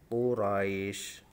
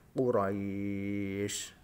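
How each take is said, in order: First: The long vowel is held for two beats. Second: The long vowel is held for six beats. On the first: "Sekarang yang coba yang satu alif" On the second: "panjang yang ketiga yaitu tiga alif atau enam harokat"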